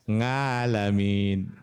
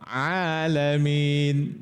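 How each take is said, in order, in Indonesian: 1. Dimulai dengan bunyi sengau 'ng'. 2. Dimulai dengan bunyi tertekan dari tenggorokan. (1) "Kalau angkatan sepuh kan dulu biasanya A, nga ya" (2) "ain ya"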